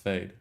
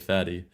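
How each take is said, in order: First: The name is said as one syllable. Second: The name is said as two syllables. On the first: The speaker calls it right. "we have got an actual pronunciation, and it's fade" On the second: The speaker calls it wrong. "that makes us originally say fatty"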